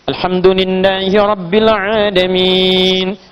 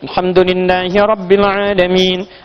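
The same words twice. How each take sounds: First: The long vowels are held moderately long. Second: The long vowels are held only briefly. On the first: This is the middle-speed recitation style. "Bisa mutawassit, empat harakat" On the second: This is the fastest recitation style. "Dua harakat, hadar namanya"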